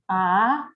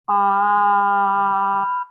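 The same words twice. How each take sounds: First: The pitch rises from middle to high. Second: The pitch stays high and level throughout. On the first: "Second tone is a raising tone" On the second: "the pitch should keep the same height from the beginning to the end"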